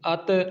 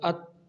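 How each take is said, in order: First: The final t is released with an echoing bounce. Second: The final t stops cleanly without any bounce. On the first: The speaker calls it wrong. "ऐसे नहीं पढ़ा" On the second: The speaker calls it right. "हमने हरकत नहीं दी"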